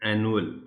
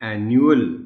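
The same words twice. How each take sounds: First: The middle vowel has no 'you' glide. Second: The middle vowel has a clear 'you' glide. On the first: The speaker calls it wrong. "आमतौर पर एनुअल बोलते हैं" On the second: The speaker calls it right. "यू की sound इसमें जाहिर करनी है"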